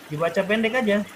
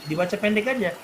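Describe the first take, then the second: Both takes have the same delivery.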